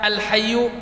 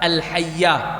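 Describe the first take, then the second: First: The word ends with an u vowel. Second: The word ends with an a vowel. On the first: "dibaca dengan baris dhammah ataupun baris depan" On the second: "dibaca dengan baris atas"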